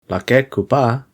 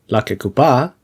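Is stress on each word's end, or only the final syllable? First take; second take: each word; final syllable. First: Each word is stressed on its own last syllable. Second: Only the final syllable of the whole is stressed. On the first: Two separate words: a fruit that happens to be red. "means red fruit, a fruit that is red" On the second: One compound word naming a kind of fruit. "a fruit identified by being red"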